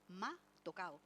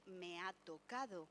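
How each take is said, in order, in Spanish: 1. La d de la última sílaba se omite. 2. La d de la última sílaba se pronuncia. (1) "juega conscientemente con un error ortográfico" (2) "En vez del"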